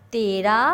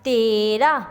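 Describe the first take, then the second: First: Said in the usual way. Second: تیرہ stretched as teee-ra, rising; teacher sounding out تیرہ slowly; drawn-out pronunciation. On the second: Shown as a demonstration. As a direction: hold the first vowel of تیرہ. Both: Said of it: "آپ کو اس کے بولنے سے".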